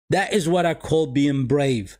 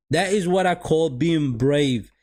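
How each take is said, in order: Both takes have the same delivery.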